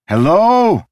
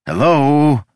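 First: Loud, very high desperate call; desperate shout. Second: Loud, high call for attention; shouted hello. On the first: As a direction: yell hello with rising panic. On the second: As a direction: call out to be noticed. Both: Acted. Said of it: "He waved his arms and shouted".

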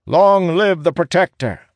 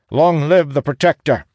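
First: Very high, loud hail; crowd's acclamation. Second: High, loud acclamation; rallying hail. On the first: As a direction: cry it out as a whole kneeling crowd. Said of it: "declares in one voice". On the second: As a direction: hail the new leader loudly. Captain hails the new leader. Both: A narrator's reading.

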